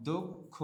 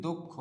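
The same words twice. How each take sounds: First: দক্ষ split as "dok... kho"; syllable by syllable. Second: Said in the usual way. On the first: Shown as a demonstration. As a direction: sound out দক্ষ in two separated parts. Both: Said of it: "এটার উচ্চারণ আমরা কি করি".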